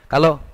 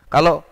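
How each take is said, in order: Both takes have the same delivery.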